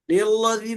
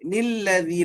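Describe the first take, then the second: First: The L sound is thick and heavy. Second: The L sound is thin and light. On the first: The speaker calls it wrong. "निल्लज़ी नहीं" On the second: The speaker calls it right. "लाम बारीक"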